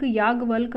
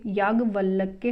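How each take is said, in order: First: याज्ञवल्क ending on lk; incorrect form. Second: याज्ञवल्क्य ending in kya; correct form. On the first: Teacher rejecting the misspelling, याज्ञवल्क without final ya. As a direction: say याज्ञवल्क as yaag-valk. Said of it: "याज्ञवल्क अशुद्ध है". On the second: Teacher giving the correction, याज्ञवल्क्य with final ya. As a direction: say याज्ञवल्क्य as yaag-valk-ya. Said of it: "याज्ञवल्क्य होता है". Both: Shown as a demonstration.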